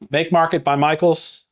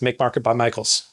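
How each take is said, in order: First: It is said at a normal speed. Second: It is said very fast.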